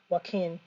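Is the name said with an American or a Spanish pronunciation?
Spanish. The name is said with a Spanish pronunciation. This is how the name is really said. The speaker calls it right. "but it's really"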